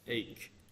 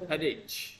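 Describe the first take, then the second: First: The word starts with a vowel sound. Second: The word starts with an H sound. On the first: The speaker calls it right. "Not H" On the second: The speaker calls it wrong. "Some people see this word and they say headache"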